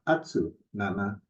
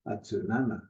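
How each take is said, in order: First: The stress stays on the first syllable. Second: The stress falls on the third syllable. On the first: The speaker calls it wrong. "it's not atsu nana" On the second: The speaker calls it right. "the second to the last syllable ... is where the accent comes in"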